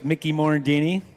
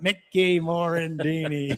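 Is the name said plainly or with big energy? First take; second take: plainly; big energy. First: The name is said plainly. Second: The name is said with big energy.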